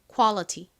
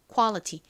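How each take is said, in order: First: The middle t is a clear t. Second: The middle t is a clear t.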